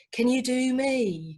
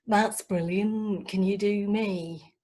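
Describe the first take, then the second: First: Mumbly fan voice. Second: Slow, gushing put-on voice; enthusiastic girlfriend. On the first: Retold or imitated. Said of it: "people with indistinct voices". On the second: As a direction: gush over the impressions. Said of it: "particularly enthusiastic".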